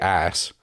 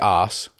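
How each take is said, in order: First: The word is said with an American vowel. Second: The word is said with a British vowel. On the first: "said it in like an American accent" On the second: "I also don't say ass"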